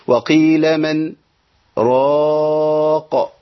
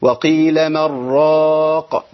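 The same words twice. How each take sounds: First: Slow chant, clear n in من, silent pause, then long-held راق; sakt before راق. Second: Slow chant, n of من merged into a doubled r of راق; merged without sakt. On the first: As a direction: stop briefly after من, then stretch راق. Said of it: "ليه فيها السكت؟ أقول إيه؟". (تلاوة بالسكت بين من و راق) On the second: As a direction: run من راق together as "marraaq", no pause. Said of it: "وليه عدم السكت؟". (تلاوة بإدغام نون من في راء راق دون سكت) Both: Shown as a demonstration.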